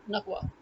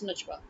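First: The middle consonant is a hard G sound. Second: The middle consonant is a J sound. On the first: "their J becomes G" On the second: "we have J"

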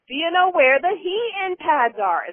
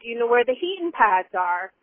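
First: The question is said at a very loud volume. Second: The question is said at a normal volume.

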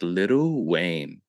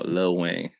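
First: The first word is said in full, two syllables. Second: The first word is shortened to one syllable. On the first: The speaker calls it wrong. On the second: The speaker calls it right. "It's not little"

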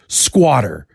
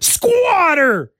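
First: The word is said flatly, without extra energy. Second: The word is exclaimed loudly with high energy. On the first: The speaker calls it wrong. "I don't just read it as squatter" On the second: The speaker calls it right. "I read it as squatter! ... because there's an exclamation point at the end"

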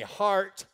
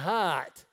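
First: The R sound is clearly pronounced. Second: The R sound is dropped, like 'hot'. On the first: The speaker calls it right. "put it back right now" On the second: The speaker calls it wrong. "you can't take the R out of the King's English"

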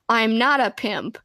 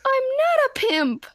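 First: It is said in a normal voice. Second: It is said in a high Kramer voice.

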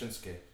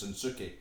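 First: The name has a Japanese-style pronunciation. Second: The name has an anglicised English pronunciation. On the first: The speaker calls it right. "his name is actually pronounced Shinsuke" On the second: The speaker calls it wrong. "we pronounce it in our bastardised version of English as Shinsuke"

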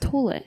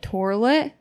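First: The first syllable has no R sound. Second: The first syllable has an R sound. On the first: The speaker calls it right. "There's no R. It's toilet" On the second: The speaker calls it wrong. "no. There's no R"

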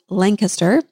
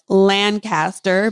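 First: The name is said with the local pronunciation. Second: The name is said with a Kansas-style pronunciation. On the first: "according to the locals, Lancaster" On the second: "especially my Kansas accent would be like Lancaster"

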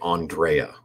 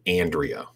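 First: The name is said in a fancier, exotic way. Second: The name is said in a plainer, blunter way. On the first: This is how people in a glamorous circle say it. "you see that name and you say Andrea" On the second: This is how people in an ordinary circle say it. "I see that name and I see Andrea"

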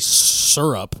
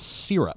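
First: The first syllable sounds like 'sir'. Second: The first syllable sounds like 'seer'. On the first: The speaker calls it wrong. "there's no U" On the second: The speaker calls it right. "I'm pronouncing the Y correctly"

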